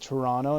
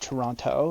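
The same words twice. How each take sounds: First: Toronto is said the casual local way. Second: Toronto is said the careful, fully spelled-out way. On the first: It sounds like someone from the city. The speaker calls it right. "a real Toronto" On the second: It sounds like an outsider. The speaker calls it wrong. "not Toronto"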